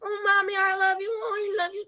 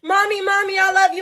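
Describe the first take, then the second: First: Put-on high, soft, sweet-talking child; soft clingy child voice. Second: Put-on high, eager child calling mommy; clingy child voice. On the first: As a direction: coo it like a clingy little kid, fading away. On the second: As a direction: call out like a needy toddler. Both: Mom voicing her clingy child.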